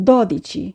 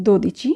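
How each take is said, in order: First: দদিচি starting with open "daw"; correct open O. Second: দোদিচি starting with closed "doh"; common wrong O. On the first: Teacher corrects learners on twelve, দদিচি with open "DAW". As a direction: say দদিচি with the first o wide open. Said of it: "আমরা বলবো". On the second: Teacher quotes learners' common slip, দোদিচি with closed "doh". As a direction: say দোদিচি with a rounded, closed first o. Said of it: "অনেকেই আমরা বলে থাকি". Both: Shown as a demonstration.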